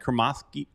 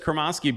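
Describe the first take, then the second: First: The S sound is made further back in the mouth. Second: The S sound is made at the tongue's front. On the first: This is how the man himself says his name. "It was more in the back, like Kremoski" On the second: This is how most people say the name. "everybody says Kremoski"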